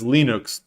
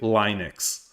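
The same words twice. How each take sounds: First: It is pronounced the way Europeans say it. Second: It is pronounced the usual American way. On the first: "once I heard how Linus Torvalds pronounces it" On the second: "I started pronouncing it Linux"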